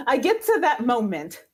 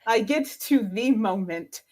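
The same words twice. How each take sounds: First: Said in the usual way. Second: "the" leaned on as "thee"; single out THE moment with emphasis; stress on THE. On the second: Real, not acted.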